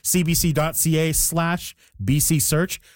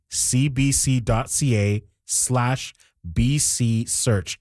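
First: It is said at normal speed. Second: It is said slowly.

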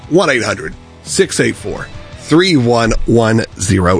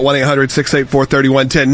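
First: The number is said slowly. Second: The number is said quickly.

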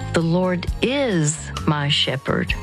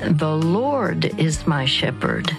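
First: The stress is on the word is. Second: The stress is on the word Lord.

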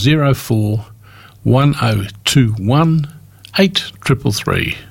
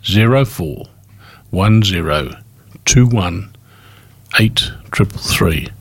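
First: The number is said at normal, quicker pace. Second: The number is said more slowly.

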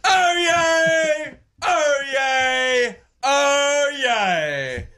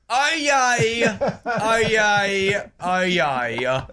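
First: It is said in a British accent. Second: It is said in a New Zealand accent.

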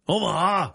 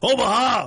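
First: It is shouted with little force. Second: It is shouted with much more force.

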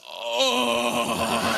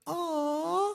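First: It is said in a coarse, rough voice. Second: It is said in a soft, sweet voice.

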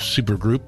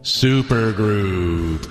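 First: It is said at normal speed. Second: It is said slowly and drawn out.

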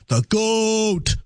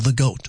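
First: Goat is drawn out, rising then falling. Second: Goat is said short and plain.

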